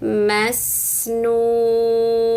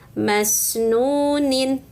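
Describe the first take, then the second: First: The word ends on a closed 'n' sound. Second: The word ends with an extra 'nin' syllable. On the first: The reading stops at the end of the verse. "maka nunnya disukunkan" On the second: The reading continues without stopping. "ini pun sama, masnunin"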